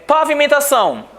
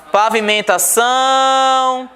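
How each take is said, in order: First: Said in the usual way. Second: "Pavimentação" slowed, final "ção" held long and high; syllable-by-syllable "Pavimentação" ending on a sustained "ção"; stress on last syllable. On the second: Shown as a demonstration. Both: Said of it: "Oxítona".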